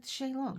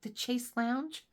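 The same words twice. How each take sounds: First: "Shay Long" said as two words, with a flat "Shay" and a long "Long"; mispronounced. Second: "The Chase Lounge?" drawn out slowly with a rising question; correcting pronunciation. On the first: Husband insisting the song says "Shay Long", mispronounced. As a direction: quote the husband's "Shay Long" as if it were a real word. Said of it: "the song was saying". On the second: Correcting her husband's song lyric, slow and questioning. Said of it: "And I'm like". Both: Retold or imitated.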